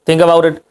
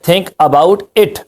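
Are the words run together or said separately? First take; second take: run together; separately. First: The words are linked together in one flow. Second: Each word is said separately and clearly.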